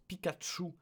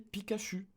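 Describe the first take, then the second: First: The 'ch' sounds like 'tch' with a t. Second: The 'ch' sounds like a soft 'sh'. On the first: This keeps the Japanese sound from the anime. "Mais non, on le prononce Pikachu" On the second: This follows French spelling rules. "si on était logique, on devrait prononcer Pikachu"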